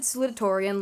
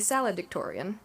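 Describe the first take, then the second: First: It is said with 'loo-ta' in the middle. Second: It is said with 'lad-ic' in the middle. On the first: The speaker calls it right. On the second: The speaker calls it wrong.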